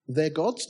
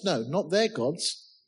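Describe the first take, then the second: First: "gods" lifted at the end as a question. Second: Slow "not their gods", "their" stressed, falling end; emphatic denial. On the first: Preacher asks whom the sailors cried to, questioning rise on "gods". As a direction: ask "their gods" with a rise on "gods". Rhetorical question, then denied. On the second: Preacher corrects whom the sailors cried to, slow falling denial stressing "their". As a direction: deny it slowly, leaning on "their". Answers own rhetorical question. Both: Shown as a demonstration.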